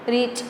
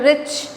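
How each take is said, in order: First: "रीच" with a long ee, said softly; soft, deliberate mispronunciation "रीच", long vowel; wrong pronunciation. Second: "रिच" in one beat with a short i; quick single-syllable "रिच", short i; said as one piece. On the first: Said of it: "ऐसे तो नहीं कर रहे". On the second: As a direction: say "रिच" whole, short vowel, no break. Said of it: "एक साथ बोल रहे हैं". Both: Shown as a demonstration.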